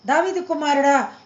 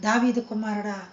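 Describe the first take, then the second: First: దావీదు pushed out louder in a mild call; louder cry. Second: Said in the usual way. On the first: Retold or imitated. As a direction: call out దావీదు కుమారుడా harder, a touch raised. (గుడ్డివాడు యేసును పిలుస్తూ కొంచెం గట్టిగా కేక) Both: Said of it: "ఇంకా పెద్దగా కేకలేస్తున్నాడంట".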